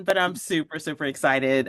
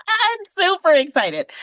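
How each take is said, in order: First: Said in the usual way. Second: Much higher and louder, squealing with joy; super excited. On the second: Real, not acted. Telling the host she's thrilled to be on, gushing excitedly. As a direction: let the excitement spill over. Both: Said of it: "I'm trying to calm down".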